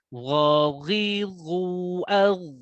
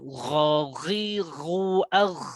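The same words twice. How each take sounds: First: The gh sound is clean, without rasping. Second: The gh sound is rasping, like a snore. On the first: The speaker calls it right. "Huruf ghain tetap bersih" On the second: The speaker calls it wrong. "Jangan ghaghiru al. Nah, itu miliknya huruf kha"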